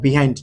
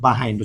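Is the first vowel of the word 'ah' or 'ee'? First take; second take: ee; ah. First: The first syllable has an 'ee' vowel. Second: The first syllable has an 'ah' vowel. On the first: The speaker calls it wrong. "বিহাইন্ড না" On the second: The speaker calls it right. "এটা হচ্ছে বাহাইন্ড উচ্চারণ হবে"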